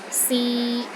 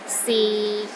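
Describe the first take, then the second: First: The pitch is mid and steady. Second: The pitch is low and steady. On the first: "Pronounce in the middle of your range and it is steady" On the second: "the sixth tone is low and steady, but not as low as the fourth tone"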